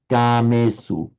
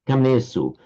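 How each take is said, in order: First: The first vowel is long. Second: The first vowel is short. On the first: The speaker calls it right. "long, long, short" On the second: The speaker calls it wrong. "you shorten that to an up"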